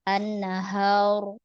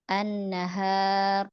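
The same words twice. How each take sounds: First: The alif vowel is heavy and thick. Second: The alif vowel is light and thin. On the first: The speaker calls it wrong. "an-nahar itu tebal" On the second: The speaker calls it right. "itu yang tipis"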